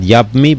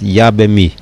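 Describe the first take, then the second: First: No vowel is heard between b and m. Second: A short vowel is heard between b and m. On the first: The speaker calls it wrong. "not Yabmi" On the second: The speaker calls it right. "Try to make it with a shvo no"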